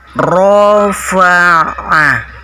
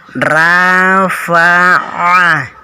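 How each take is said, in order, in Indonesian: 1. R-nya berat dengan bibir membulat. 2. R-nya ringan dengan vokal tipis. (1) "tapi rofa'ah" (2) "bukan rafa'ah"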